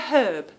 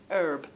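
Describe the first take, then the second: First: British accent, sounded H and no R. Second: American accent, no H and a sounded R. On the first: "We say herb, and we don't really pronounce R's" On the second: "I'm going to say it like I hear it because you do pronounce the R"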